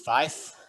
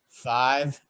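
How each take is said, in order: First: The word ends with an 'f' sound. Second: The word ends with a 'v' sound. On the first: The speaker calls it right. "Five is fife" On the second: The speaker calls it wrong. "you could mispronounce if you just pronounce them regularly"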